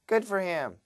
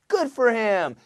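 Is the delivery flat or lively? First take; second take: flat; lively. First: It is said flatly, with little energy. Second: It is said lively, with natural energy. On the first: The speaker calls it wrong. "don't do this" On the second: The speaker calls it right. "Do it like a human with body language"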